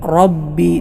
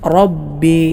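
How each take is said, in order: First: The r is heavy and fills the mouth. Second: The r is heavy and fills the mouth.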